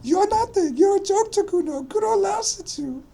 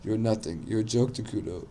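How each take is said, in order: First: Put-on very high, screeched kid taunt; loud, shrieking boy voice; raised voice. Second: Half-hearted raised voice, a bit louder and higher; mildly loud, cocky kid taunt. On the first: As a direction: scream the taunt at the top of your range. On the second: Acted. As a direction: lift the voice slightly, without screaming. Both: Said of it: "now he raised his voice again".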